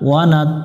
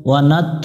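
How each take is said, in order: Both takes have the same delivery.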